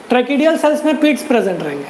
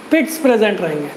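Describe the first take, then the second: First: Said in the usual way. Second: Teacher repeating पिट्स so students remember; stress on पिट्स. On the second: Shown as a demonstration. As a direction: lean on पिट्स to drive it home.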